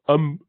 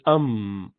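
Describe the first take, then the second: First: The m sounds blocked, with no air through the nose. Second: The m sounds nasal, with air through the nose. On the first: The speaker calls it wrong. "So you do not close it, otherwise you would say um, um, not like that" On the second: The speaker calls it right. "It has to be um"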